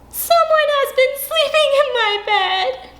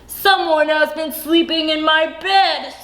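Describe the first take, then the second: First: It is said in a wee small voice. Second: It is said in a great big, deep voice.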